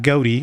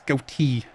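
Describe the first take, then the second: First: The T sound is soft and weak. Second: The T sound is strong and clear. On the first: The speaker calls it wrong. "It's not goatee" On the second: The speaker calls it right. "Emphasize the T"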